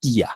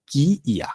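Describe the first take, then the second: First: কিয়া joined into one word; merged pronunciation. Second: কি ইয়া with both parts sounded; separate pronunciation. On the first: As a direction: lose the separate ই, just আ after কি in কিয়া. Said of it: "রস্যইটা হবে না". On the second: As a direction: give ইয়া its own ই after কি. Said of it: "এভাবে হবে". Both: Shown as a demonstration.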